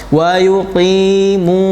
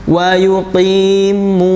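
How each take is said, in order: Both takes have the same delivery.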